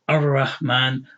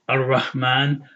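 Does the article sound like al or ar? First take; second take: ar; ar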